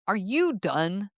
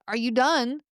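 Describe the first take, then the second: First: It sounds irritated, like in an argument. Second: It sounds polite, like a waiter.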